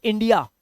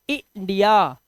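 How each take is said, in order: First: Said in the usual way. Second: इंडिया broken up to show the short 'i' at the start; teacher spells out इंडिया by sound; short 'i' demo. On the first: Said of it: "English में बोलते हैं". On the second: Shown as a demonstration. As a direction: sound out इंडिया slowly as "i-ndiya". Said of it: "छोटा ई लगा हुआ है".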